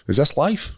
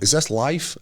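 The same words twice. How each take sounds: First: Imitating a high friend, pitch up at the end; lightly voiced spaced-out guy asking; dazed stoner. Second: Same spaced-out question, a bit less lifted; lightly mock the high friend asking again; retelling the stoned friend's question a second time; dazed stoner repeat. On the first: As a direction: friend high on drugs at the event, mildly mocked. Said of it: "And he goes". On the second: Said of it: "And he went".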